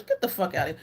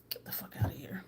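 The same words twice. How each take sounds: First: Said in the usual way. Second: Whispered dismissal. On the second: Shown as a demonstration.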